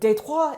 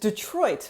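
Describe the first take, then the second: First: It is said with a French pronunciation. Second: It is said with an English pronunciation.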